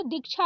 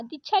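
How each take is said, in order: First: दीक्षा with k before chha; correct क्ष. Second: दीक्षा said as dichha; wrong छ for क्ष. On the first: Teacher correcting it, दीक्षा as dikchha. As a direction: sound the k in दीक्षा. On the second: Teacher reading the misspelling, दीक्षा as dichha. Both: Shown as a demonstration. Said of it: "लिखा है तो दीक्षा हो जाएगा".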